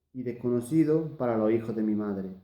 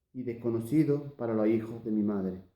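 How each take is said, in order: No difference in how they are said.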